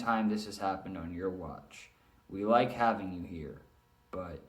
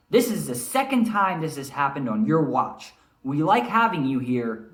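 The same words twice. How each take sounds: First: Flat, droning read with no pitch change; monotone demo, voice stuck on one note. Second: Louder, firm scolding; stern manager. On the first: Shown as a demonstration. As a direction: drone it out like a bored reader. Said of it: "heard someone read in monotone, droning on and on, which is what I tried to just do". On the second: Acted. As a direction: warn him like a boss losing patience. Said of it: "he's stern, kinda like Mister Grassel, shaking his finger".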